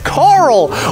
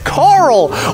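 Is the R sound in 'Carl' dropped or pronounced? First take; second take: pronounced; pronounced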